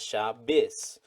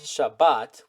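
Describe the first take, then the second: First: It is said in an Ashkenazi accent, ending in s. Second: It is said in a Sephardic accent, ending in t.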